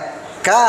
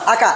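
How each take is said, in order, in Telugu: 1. k శబ్దం ఒత్తుగా ఉంది, ఎక్కువసేపు నిలుస్తుంది. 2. k శబ్దం పొట్టిగా, ఒంటరిగా ఉంది. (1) "ఒత్తుంటే" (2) "ఒత్తు లేనప్పుడేమో"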